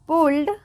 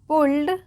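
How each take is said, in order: No difference in how they are said.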